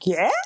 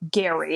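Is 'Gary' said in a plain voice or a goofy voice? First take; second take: goofy; plain. First: It is said in a goofy character voice. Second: It is said in a plain, ordinary voice.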